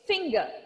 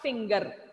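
First: The final R sound is silent. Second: The final R sound is pronounced. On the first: The speaker calls it right. "make sure the R is silent. It's finger" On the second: The speaker calls it wrong. "It's not finger"

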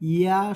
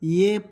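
First: The letter name ends in an 'a' vowel. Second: The letter name ends in an 'e' vowel. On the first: The speaker calls it right. "ইয়া শুদ্ধ" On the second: The speaker calls it wrong. "কেহ কেহ ইয়ে পড়ে, ইয়ে শুদ্ধ নহে"

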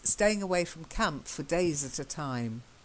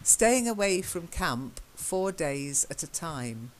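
First: The word before 'days' is weak and runs straight through. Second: The word before 'days' is said full and stressed. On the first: It means many days. The speaker calls it right. "But how it should be read is" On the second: It means exactly four days. The speaker calls it wrong. "Now, that would be the number four"

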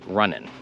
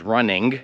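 First: The final g sound is dropped. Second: The final g sound is clearly pronounced. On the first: "ogólnie się mówi running, okay? Bo się nie mówi tego g" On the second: "można powiedzieć running"

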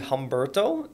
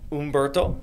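First: The name begins with an H sound. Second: The name begins directly with a vowel. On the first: The speaker calls it wrong. "Am I saying it right?" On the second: The speaker calls it right. "which I guess that's how you properly pronounce it"

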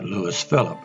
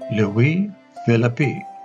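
First: The name is said with an English pronunciation. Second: The name is said with a French pronunciation. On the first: "since I'm English, I'm just going to call it" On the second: "if you're French, you may pronounce this"

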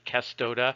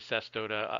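First: The word begins with a hard K sound. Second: The word begins with a soft S sound. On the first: This is the correct Latin pronunciation. "You always pronounce a C as a hard C" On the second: This is a common but less correct pronunciation. "there are enough people who say cestoda"

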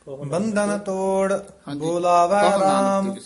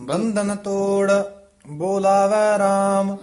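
The two takes are said the same way.

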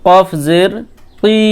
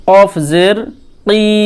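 No difference in how they are said.

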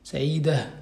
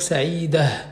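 First: The ending is said with an h sound. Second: The ending is said with an h sound.

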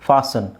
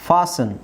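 No difference in how they are said.

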